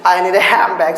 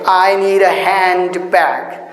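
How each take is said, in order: First: Hand and bag run together with an m sound. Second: There is a small break between hand and bag. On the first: The speaker calls it right. "there is a flow in this sentence" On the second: The speaker calls it wrong. "there occurs a pause when I say I need a handbag"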